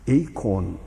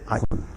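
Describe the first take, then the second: First: The first vowel sounds like 'ay'. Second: The first vowel sounds like 'eye'. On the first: This is the Greek pronunciation. "헬라어로는 에이콤이라 그래요" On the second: This is the Latin pronunciation. "라틴 말로 발음할 땐 아이콘 그럽니다"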